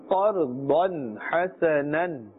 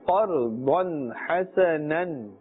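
No difference in how they are said.

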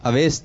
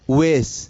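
First: The name begins with an 'a' vowel. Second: The name begins with a 'u' vowel. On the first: The speaker calls it wrong. "اویس تو نہیں ہے" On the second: The speaker calls it right. "حمزہ پر جو ہے پیش ہے"

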